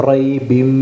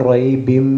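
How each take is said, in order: The two takes are said the same way.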